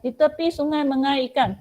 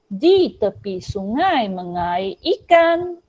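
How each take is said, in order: First: It is recited fast. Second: It is recited slowly.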